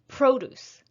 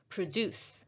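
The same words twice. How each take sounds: First: The stress is on the first syllable. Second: The stress is on the second syllable. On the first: It is used as a noun. "we're going to stress the first syllable because it's a noun" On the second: It is used as a verb. "for the verb, we're going to stress the second syllable"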